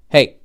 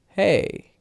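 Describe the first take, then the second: First: The word is cut off abruptly at the end. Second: The word is held and falls lower as it ends. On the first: The speaker calls it wrong. "that's chop. I ended the word" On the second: The speaker calls it right. "I kept the uh, at the end, but I went lower as it finished"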